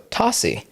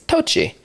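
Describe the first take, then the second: First: The middle consonant is an S sound. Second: The middle consonant is not an S sound. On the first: This is the Sicilian reading the family uses. "there's also a Sicilian two C's as a S sound" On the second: This is the standard Italian reading of the name. "In Italian, technically it's Tocci"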